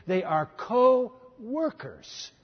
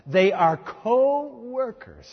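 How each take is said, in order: First: "co-workers" drawn out slowly again; very slow stress on co-workers. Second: "co-workers" drawn out slowly; very slow stress on co-workers. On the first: Preacher repeats the phrase very slowly, drawing out co-workers. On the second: Preacher savours the quote, very slowly drawing out co-workers. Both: Shown as a demonstration. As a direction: linger on "co-workers".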